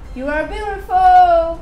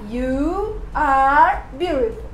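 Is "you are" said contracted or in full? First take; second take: contracted; full. First: "You are" is merged into one short syllable. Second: "You are" is said as two full words. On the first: The speaker calls it right. "vai falar" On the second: The speaker calls it wrong. "Em vez de falar you are beautiful"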